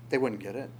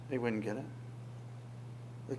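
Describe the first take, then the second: First: Said in the usual way. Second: Slow, much softer echo, nearly fading out; soft slow repeat. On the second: Shown as a demonstration. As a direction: let the repeat sink into near silence.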